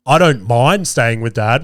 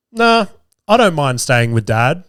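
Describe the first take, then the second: First: Slow, drawn-out "mind" in mock disbelief; stress on MIND. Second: Lightly voiced casual, calm kid; calm child's reply. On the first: Hurt dad quoting his son's answer, stressing "mind". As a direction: lean slowly on the word "mind". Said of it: "What the fuck? Not, I want to". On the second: Son answering his mum's question, mildly calm. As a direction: retell it with calm indifference. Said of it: "P just ever so calmly just says to her".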